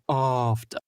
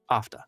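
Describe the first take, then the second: First: The word is drawn out and stretched long. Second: The word is said short and sharp. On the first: The speaker calls it wrong. "don't milk those words that much" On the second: The speaker calls it right. "Nice, short, sharp, boom"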